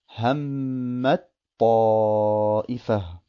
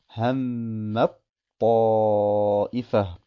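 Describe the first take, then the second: The two takes are said the same way.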